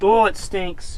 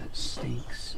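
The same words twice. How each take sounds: First: Disgusted groan, out loud; smelling something awful. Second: Disgusted whisper; smelling something awful. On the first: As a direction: recoil from the stench. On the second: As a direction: breathe it out, repulsed by the stench. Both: Real, not acted. Recoiling from smelly car.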